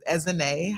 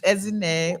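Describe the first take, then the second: First: The name is said with American pronunciation. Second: The name is said with Nigerian pronunciation. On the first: "or for the Americans is Ezine" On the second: "how to say easy Nigerian name is Ezine"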